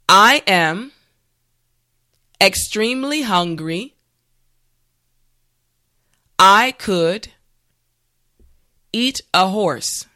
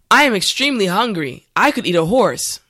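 First: The sentence is said slowly and carefully. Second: The sentence is said at a normal speed. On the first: "this time repeat after me" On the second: "the last time at a regular pace"

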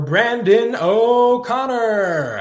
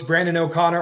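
First: It is said in a booming, drawn-out announcer voice. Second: It is said in a plain, ordinary speaking voice.

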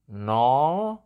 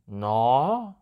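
First: The pitch rises through the word. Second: The pitch rises through the word.

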